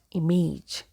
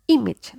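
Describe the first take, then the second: First: "image" as im-AYJ, long A in -age; mispronounced "image". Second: "image" as IM-ij, short I in both syllables; correct "image". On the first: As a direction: say "image" wrongly, with an A sound in the ending. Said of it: "image, not image". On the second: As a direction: model "image" with -age as -ij. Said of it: "So it is". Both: Shown as a demonstration.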